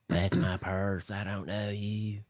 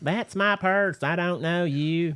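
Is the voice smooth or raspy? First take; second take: raspy; smooth. First: The voice is rough and raspy. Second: The voice is smoother, less raspy.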